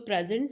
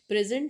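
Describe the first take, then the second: First: The stress falls where the noun form puts it. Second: The stress falls where the verb form puts it. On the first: It refers to a gift. "Noun या gift की बात करते हैं" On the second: It means to give. "मतलब देना, verb की बात करते हैं"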